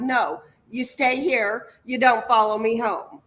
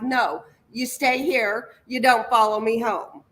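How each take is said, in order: First: It is said in a firm, commanding tone. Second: The same.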